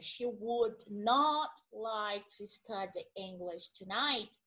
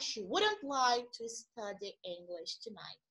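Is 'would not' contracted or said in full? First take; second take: full; contracted. First: Would and not are said as two full words. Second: Would and not merge into one quicker word. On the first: "uma frase que seria" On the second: "Percebem que a gente fala mais rápido"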